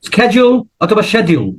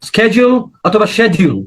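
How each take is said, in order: Both takes have the same delivery.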